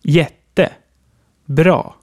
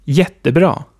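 First: Jätte, bra as two separate words with a pause between. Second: Jättebra as one word with one main stress; one compound word. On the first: Teacher shows the wrong split: jätte, bra. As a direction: say jätte and bra apart, each on its own. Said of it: "Wären die Wörter getrennt, würde es so klingen". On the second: Teacher shows the right form: jättebra. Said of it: "Und zusammen". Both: Shown as a demonstration.

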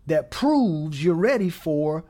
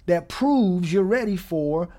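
Both takes have the same delivery.

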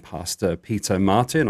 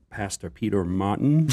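First: Said in the usual way. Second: Peter Martin in a put-on American accent; mock American pronunciation, drawn out; imitated American accent. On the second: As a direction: imitate an American saying the name. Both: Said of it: "do an impression of your accent".

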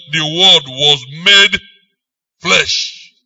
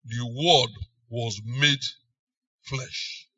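First: Loud, slow, stressing made; emphatic proclamation. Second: Softer, sinking to a whisper on flesh; hushed reverent. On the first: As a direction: proclaim each word of the Word was made flesh slowly and firmly. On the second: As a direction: draw listeners in, whisper the word flesh. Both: Shown as a demonstration. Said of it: "definite, emphasis".

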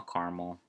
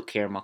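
First: "caramel" said CAR-mul; two-syllable caramel. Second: "caramel" said CARE-uh-mel; three-syllable caramel. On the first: Podcaster restating the choice, "caramel" as CAR-mul. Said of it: "That's weird to say caramel". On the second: Podcaster restating the choice, "caramel" as CARE-uh-mel. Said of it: "How do you guys say it?". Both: Shown as a demonstration.

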